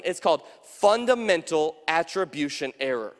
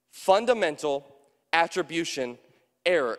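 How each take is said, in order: First: Said in the usual way. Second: "Fundamental" "attribution" "error" each set apart by a pause; slow word by word. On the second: Shown as a demonstration. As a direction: spell out the term one word at a time with pauses between them.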